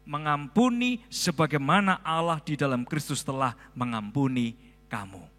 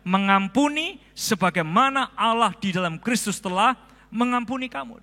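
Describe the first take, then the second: First: It is read at a normal volume. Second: It is read aloud in a loud voice.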